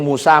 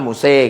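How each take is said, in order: First: The final vowel is a plain open 'a'. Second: The final vowel is tilted toward 'e'.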